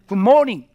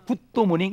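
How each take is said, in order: First: It is said with plain Korean vowels. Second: It is said with extra Japanese-style vowels.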